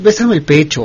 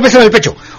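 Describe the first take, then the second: First: It is said in a soft, coaxing tone. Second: It is said in a bossy, commanding tone. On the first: It is a request, not an order. The speaker calls it right. "No lo mandes, pídelo. ... pero así, de un tono" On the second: It is an order given to the partner. The speaker calls it wrong. "Es diferente a"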